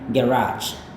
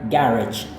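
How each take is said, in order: First: It is said with an American accent. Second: It is said with a British accent. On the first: "Sedangkan gaya Amerika itu adalah garage" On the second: "gaya orang British itu adalah garage"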